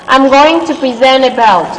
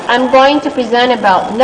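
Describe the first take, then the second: The two takes are said the same way.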